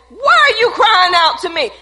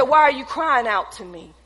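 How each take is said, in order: First: Loud, high-pitched voice of God; booming preached question. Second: Said in the usual way. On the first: Acted. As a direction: thunder it out from the pulpit.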